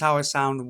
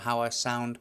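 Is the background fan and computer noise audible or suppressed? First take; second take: suppressed; audible. First: Fan and computer noise are removed behind the voice. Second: Fan and computer noise are heard behind the voice. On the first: "how I sound with noise cancellation" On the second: "how I sound with no noise cancellation"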